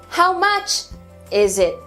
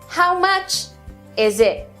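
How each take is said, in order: No difference in how they are said.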